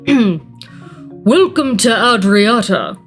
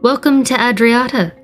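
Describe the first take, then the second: First: It is read in a put-on character voice. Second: It is read in a plain narrating voice.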